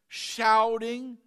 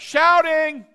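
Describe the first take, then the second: First: It is said quietly, as a list item. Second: It is said loudly, like a shout.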